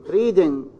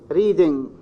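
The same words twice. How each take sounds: Both takes have the same delivery.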